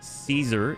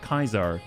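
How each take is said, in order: First: The word begins with an S sound. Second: The word begins with a K sound. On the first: The speaker calls it right. "Z Caesar would be how it's pronounced" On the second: The speaker calls it wrong. "Caesar is not Kaiser"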